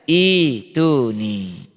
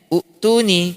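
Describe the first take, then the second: First: The word begins with an i vowel. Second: The word begins with a u vowel. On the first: The speaker calls it right. "Tetapi dibaca ituni" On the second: The speaker calls it wrong. "harusnya ini dibaca u'tuni"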